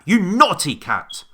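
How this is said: It is shouted loudly. "Or did he shout it at, at the cat?"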